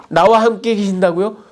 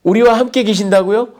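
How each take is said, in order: First: Higher disbelieving question now stressing 나와; indignant disbelief with 나와 leaned on; incredulous retort. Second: High, disbelieving question stressing 우리와; higher, indignant disbelief on 우리와; incredulous retort. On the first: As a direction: turn it on yourself, hitting 나와. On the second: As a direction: throw the 우리와 back in disbelief. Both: Acted. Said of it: "당돌하게 하나님을 비난합니다".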